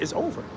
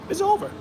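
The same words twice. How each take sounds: First: Said in the usual way. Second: Over jumped way up high in a squeak; a final high-pitched it's over; squeaky high it's over. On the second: Shown as a demonstration. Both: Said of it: "repeated it's over".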